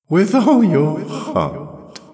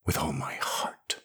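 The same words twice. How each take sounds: First: High, loud, slow repetition with mirth underneath; mocking echo. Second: Very soft, near-whispered vow; hushed intensity. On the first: The voice echoes Jirel's vow, mocking. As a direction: throw the words back, ringing and derisive. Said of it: "echoed the voice, and there was an undernote of laughter". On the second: Jirel swears her hate to the voice, hushed. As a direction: breathe it out low and quiet. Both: A narrator's reading.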